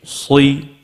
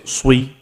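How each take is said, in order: First: The bottom lip stays still, giving an l-like sound. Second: The bottom lip moves, giving a w-like sound. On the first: The speaker calls it right. "Don't move your bottom lip. Keep it straight" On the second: The speaker calls it wrong. "Don't say swi"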